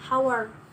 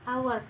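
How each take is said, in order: First: The word starts with an audible h sound. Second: The word starts with a vowel, h silent. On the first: The speaker calls it wrong. "karena bukan dibaca hour" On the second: The speaker calls it right. "An hour ini dibaca hour"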